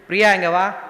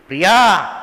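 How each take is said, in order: First: The name is called in a plain, gentle way. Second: The name is called with the strongest force.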